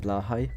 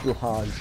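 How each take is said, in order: First: The word ends with a 'high' sound. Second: The word ends with a 'j' sound. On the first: The speaker calls it right. "I actually know how to pronounce it" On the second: The speaker calls it wrong. "If you hear someone say Blahaj, they're not a true IKEA enjoyer"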